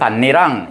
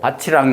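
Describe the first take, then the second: First: It is said with an 'nn' sound, like bannirang. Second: It is said with a 'ch' sound, like bachirang. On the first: It means the ridge of a field. "실질 형태소라는 거야. 그때는 밭이랑 이렇게 얘기하고" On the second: It means 'field and', joining two nouns. "국의 음화가 일어났다"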